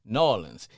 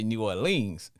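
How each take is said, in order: First: It is said the local New Orleans way. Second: It is said the old-school New Orleans way.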